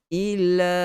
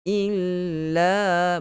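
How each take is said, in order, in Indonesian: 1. Bunyi ll pendek dan agak tidak jelas. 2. Bunyi ll ditahan panjang dan jelas. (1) "ada sikit je tak jelas" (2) "bagi jelas kita punya syaddah"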